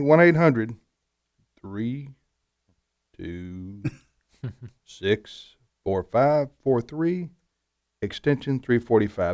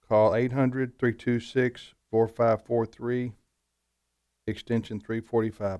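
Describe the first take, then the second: First: The number is read slowly. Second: The number is read at normal speed.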